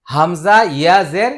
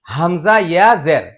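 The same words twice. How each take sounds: The two takes are said the same way.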